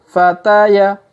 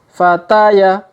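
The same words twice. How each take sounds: Both takes have the same delivery.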